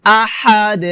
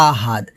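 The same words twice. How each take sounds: First: "আহাদ" with pressed h and bounced final d; qalqalah with throat h. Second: "আহাদ" lower, with light h and a closed final d; wrong plain h. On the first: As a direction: press the h in "আহাদ", let the d echo as "de". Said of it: "লাস্টে কলকলা করতে হবে". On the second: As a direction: say "আহাদ" as everyday ahad, no bounce. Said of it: "এটা আহাদ বলা যাবে না". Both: Shown as a demonstration.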